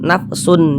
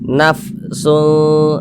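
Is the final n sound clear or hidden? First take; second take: clear; hidden. First: The final n is pronounced clearly. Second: The final n is blurred and nasalized. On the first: The speaker calls it wrong. "jangan dibaca nafsun" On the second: The speaker calls it right. "Tapi disamarkan"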